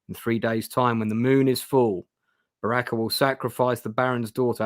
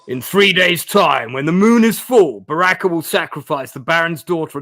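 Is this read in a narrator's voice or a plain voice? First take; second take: plain; narrator's voice. First: It is read in an ordinary, plain voice. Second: It is read in a dramatic narrator's voice. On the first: The speaker calls it wrong. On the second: The speaker calls it right.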